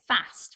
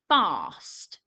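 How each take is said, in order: First: The vowel is short, like 'a' in cat. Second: The vowel is long, like 'ar' in car. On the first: This is how people from further north say it. "from a bit further up north, you might say fast" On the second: This is how people from the speaker's area say it. "that A sound sounds like an R sound"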